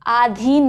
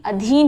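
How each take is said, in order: First: आधीन with a long first a, aadheen; आधीन as aa-dheen; आधीन, बड़े आ के साथ; wrong pronunciation. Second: अधीन with a short first a, adheen; अधीन as a-dheen; अधीन, छोटे अ के साथ; correct pronunciation. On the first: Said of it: "आधीन नहीं". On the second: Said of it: "अधीन होता है". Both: Shown as a demonstration.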